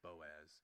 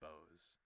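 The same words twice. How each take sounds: First: The O and A are said as separate sounds. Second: The O and A blend into one sound. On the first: The speaker calls it right. "say the O and the A apart from each other, not as one big" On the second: The speaker calls it wrong. "I think last time I said Boaz"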